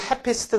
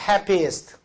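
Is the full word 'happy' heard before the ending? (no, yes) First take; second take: no; yes. First: The happy part is cut short before the ending. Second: Happy is said in full, then east added. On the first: The speaker calls it wrong. "이걸 happiest 그러면 안 돼요" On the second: The speaker calls it right. "happy 발음까지 해놓고, east를 추가해요"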